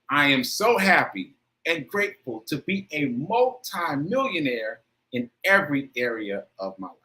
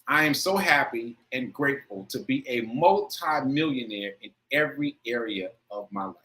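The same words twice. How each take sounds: First: It is said with strong feeling and emphasis. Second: It is said plainly, without extra feeling.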